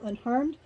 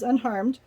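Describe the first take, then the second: First: Rising question on "unharmed?"; asking question. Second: "Unharmed." falling, said as a settled statement; flat answer. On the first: Fiancé anxiously asks the girl, rising question. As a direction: lift "unharmed?" up at the end like a worried question. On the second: Girl reassures her fiancé, falling statement. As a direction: answer "Unharmed." plainly, closing it down. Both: Retold or imitated.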